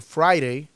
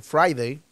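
First: Friday with the d softened to a tap, "frai-rei"; soft-d variant. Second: Friday with a clear hard d, "frai-dei"; hard-d variant. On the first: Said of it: "Tú puedes decir Friday". (Friday con la d suave, "frai-rei") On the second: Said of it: "puedes decir Friday". (Friday con la d marcada, "frai-dei") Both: Shown as a demonstration.

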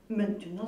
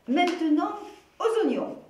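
First: Said in the usual way. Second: Higher, louder, bright call to move on; rally your friend to the next task; cheerful announcement. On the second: Acted. Mathilde leads on cheerfully.

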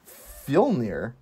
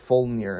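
First: "Fjolnir" tried slowly with a short i, like "FYIL-neer"; tentative pronunciation. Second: "Fjolnir" with a rounded first vowel, like "FULL-neer"; retry "Fjolnir", first vowel as in "full"; corrected pronunciation. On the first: Host unsure of a character's name, tentative "Fjolnir" with a "fill" vowel. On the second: Host retries a character's name, "Fjolnir" with a "full" vowel. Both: Real, not acted. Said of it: "if I'm saying his name".

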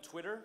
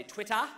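First: Accented Twitter. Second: Said in the usual way. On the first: Shown as a demonstration. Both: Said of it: "I said Twitter with an accent".

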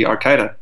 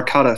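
First: Arcada said with the speaker's accent creeping in; accent slipping in. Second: Said in the usual way. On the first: Real, not acted. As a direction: let the accent slip on the name Arcada. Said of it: "my accent crept in again". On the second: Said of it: "sorry, my accent crept in again".

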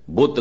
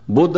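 First: ਬੁੱਤ with a plain unaspirated t; Afghan-style butt. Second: ਬੁੱਧ with a breathy voiced dh, raised; correct Buddh. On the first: Preacher mimicking Afghans, saying ਬੁੱਤ with plain t. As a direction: clip ਬੁੱਤ with a hard plain t ending. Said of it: "ਬੁੱਧ ਨਹੀਂ ਕਹਿ ਸਕਦੇ ਸਨ". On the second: Preacher to congregation, saying ਬੁੱਧ with full aspirated dh. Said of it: "ਬੁੱਤ ਕਿਹਾ". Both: Shown as a demonstration.

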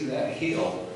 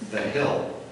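First: Said in the usual way. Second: "that hill" with a slipped-in Southern twang; "hill" drawn out like Kentucky; a touch of Southern accent on "that hill". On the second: Real, not acted. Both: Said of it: "That sounded like a southern accent".

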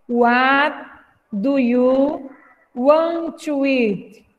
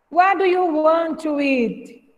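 First: Phrase by phrase, slowly; slow, chunked teacher read; chunked slow model. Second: Said in the usual way. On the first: Shown as a demonstration. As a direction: break it into chunks for repeating. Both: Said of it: "pra repetir aí em casa".

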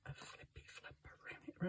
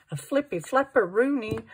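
First: Whisper. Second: Silly singsong. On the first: Repeated as whisper. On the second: Playful crafting commentary, silly word. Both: Acted.

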